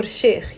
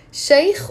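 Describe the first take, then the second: First: "Sheikh" with one pure long "eh" vowel; slow "Sheikh", steady e before the throaty kh; long-e variant. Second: "Sheikh" with an "ay-ee" glide, like "shike"; drawn-out "Sheikh", diphthong before the throaty kh; diphthong variant. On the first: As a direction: say "Sheikh" like "shehkh", no glide. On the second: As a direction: say "Sheikh" slowly with a wide gliding vowel. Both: Shown as a demonstration. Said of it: "You can pronounce it Sheikh or Sheikh".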